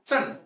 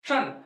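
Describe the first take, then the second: No difference in how they are said.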